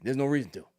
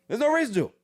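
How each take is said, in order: First: Said in the usual way. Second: Louder, higher insistence; emphatic repeat. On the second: Real, not acted. Refusing to ever visit Mississippi, said louder. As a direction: hammer it home the second time.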